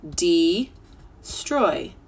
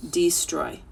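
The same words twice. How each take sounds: First: "destroy" drawn out slowly by syllables. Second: Said in the usual way. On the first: Shown as a demonstration. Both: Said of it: "We'll try it in syllables".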